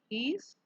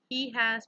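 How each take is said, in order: First: The two words merge into one short syllable. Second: Both words are said fully and separately. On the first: "becomes he's" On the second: "He has becomes"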